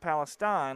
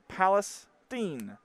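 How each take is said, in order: First: The last syllable sounds like 'stine', rhyming with 'wine'. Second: The last syllable does not sound like 'stine'. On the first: The speaker calls it wrong. "not Palestine like I pronounce it" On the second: The speaker calls it right. "it's actually pronounced Palestine"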